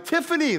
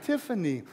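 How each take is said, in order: First: The name is said in an unloving tone. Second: The name is said in a loving tone. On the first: The speaker calls it wrong. "That didn't come across very loving in that way" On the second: The speaker calls it right. "and love"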